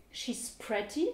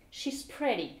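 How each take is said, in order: First: 'pretty' with crisp T, rising end; British "pretty" with a clear T. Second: American 'pretty' with D, falling end. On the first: Teacher translates elle est jolie, pretty with real T. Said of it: "comme un T". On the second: Teacher contrasts for learners, pretty with D sound. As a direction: say "pretty" as 'priddy'. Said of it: "comme un D". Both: Shown as a demonstration.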